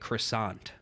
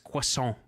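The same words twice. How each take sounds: First: The word is said with an English-style pronunciation. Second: The word is said with a French-style pronunciation. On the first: The speaker calls it wrong. "You would probably say some dumb shit like croissant" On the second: The speaker calls it right. "I know French... It's croissant"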